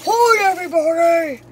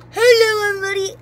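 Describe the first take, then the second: First: Low voice from the other gas; deep gas voice. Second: High squeaky helium imitation; imitated helium voice. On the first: Retold or imitated. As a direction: drop your voice deep and heavy. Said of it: "the complete opposite". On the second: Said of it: "it lasts for, like, two seconds".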